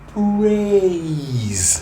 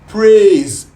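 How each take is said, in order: First: The vowel glides from one sound to another. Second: The vowel stays on one pure sound. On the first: The speaker calls it right. "But praise is A to E" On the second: The speaker calls it wrong. "They go praise, praise. Just A"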